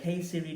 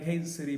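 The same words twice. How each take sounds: First: Higher-pitched, put-on voice command; mock how nobody really talks; mock careful Siri command. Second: Casual call, mid-task; offhand Siri command. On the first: Vlogger mocking ideal Siri users, put-on higher voice. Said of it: "I don't speak like that". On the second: Acted. Busy user talking to Siri, casual and offhand. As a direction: toss it out as if busy. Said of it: "I'm doing fifteen things and then I'll be like".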